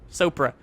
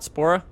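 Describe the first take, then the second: First: The name is said as Sopra. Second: The name is said as Spora. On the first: The speaker calls it right. "is how you pronounce it" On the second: The speaker calls it wrong. "not Spora"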